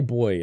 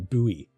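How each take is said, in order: First: It is said with one syllable, like 'boy'. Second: It is said with two syllables, like 'boo-ee'. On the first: "we say boy in Australia and Britain" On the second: "as Americans would say"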